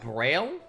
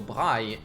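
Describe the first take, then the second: First: Braille is pronounced with an English pronunciation. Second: Braille is pronounced with a French pronunciation. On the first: This is how English speakers say the name. "people have corrected me very quickly, telling me it's pronounced Braille" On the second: This is how the creator's own language says the name. "Braille is how that that um, language is pronounced in French"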